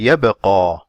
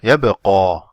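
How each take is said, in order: The two takes are said the same way.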